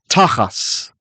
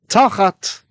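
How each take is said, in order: First: The word ends with an s sound. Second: The word ends with a t sound.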